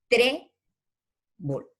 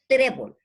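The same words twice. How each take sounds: First: "trébol" broken in two, long high "tré", pause, then "bol"; teacher sounding out "trébol" as two separate syllables; split into syllables. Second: "trébol" said whole, first syllable high and loud; emphatic "trébol" with the weight on its first syllable; stress on TRÉ. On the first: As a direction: stretch "tré", wait, then drop "bol". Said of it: "dos, dos sílabas". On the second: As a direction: punch the "tré" in "trébol", no break between syllables. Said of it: "lleva en la E". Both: Shown as a demonstration.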